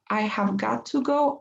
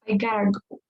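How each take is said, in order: First: Every word is said fully and separately. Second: The words blur into a short reduced form. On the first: It is the longer, more emphatic way. "the long way we would saying I have got to go" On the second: It is more informal. "This is a bit more informal"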